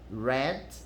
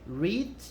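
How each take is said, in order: First: The vowel is short, as in 'bed'. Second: The vowel is long, as in 'need'. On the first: It is the simple past. "o passado é read" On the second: It is the present tense. "O presente é read"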